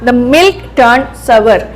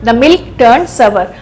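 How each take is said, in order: The two takes are said the same way.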